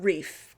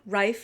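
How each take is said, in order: First: The vowel sounds like 'ee'. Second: The vowel sounds like 'eye'. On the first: The speaker calls it wrong. "not Reef" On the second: The speaker calls it right. "I am saying that correctly, Rife"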